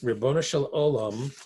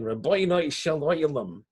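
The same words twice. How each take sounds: First: It is said in a standard Hebrew pronunciation. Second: It is said in a Hasidic Hebrew pronunciation.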